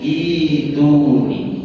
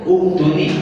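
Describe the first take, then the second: First: The word starts with an i sound. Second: The word starts with a u sound. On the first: This is the exception to the rule. The speaker calls it right. "Namun ini dikecualikan. Ini cara membacanya jadi ituni" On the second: This follows the general rule. The speaker calls it wrong. "kaidah yang tadi dibaca u, harusnya yang ini dibaca uktuni"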